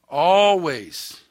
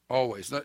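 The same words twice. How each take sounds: First: "Always" called out high and loud, stretched and falling; emphatic always. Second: Said in the usual way. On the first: Real, not acted. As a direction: proclaim "Always" as a pulpit charge.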